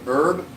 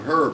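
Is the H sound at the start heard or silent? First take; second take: silent; heard. First: The word starts without an H sound. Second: The word starts with an H sound. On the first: It means a cooking spice. "you don't pronounce the H" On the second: It is a person's name. "that's actually a name"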